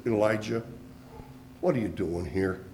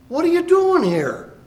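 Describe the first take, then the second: First: Much lower and softer, gentle question; barely above a murmur, like God leaning close; the still small voice, low and hushed. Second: Much higher, loud divine question; God demanding an answer, loud and high; booming voice of God. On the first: A narrator's reading. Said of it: "there came a still small voice". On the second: Acted. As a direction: call down like God from above. God questions Elijah in cave.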